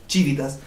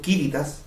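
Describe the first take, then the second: First: It is said with church Latin pronunciation. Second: It is said with classical Latin pronunciation. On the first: "lo estoy pronunciando como lo pronuncia en la iglesia" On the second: "estoy pronunciando el latín clásico"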